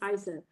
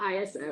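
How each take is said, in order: First: It is said as one word, eye-so. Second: It is spelled out as three letters. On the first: The speaker calls it right. "they chose to go with I S O as a word" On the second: The speaker calls it wrong. "It's not a um, an acronym"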